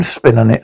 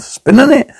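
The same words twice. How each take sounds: First: Said in the usual way. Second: "Spin on it?" pitched high, rising into a question; questioning echo. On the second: Acted. Echoing the dance teacher's phrase back, questioning.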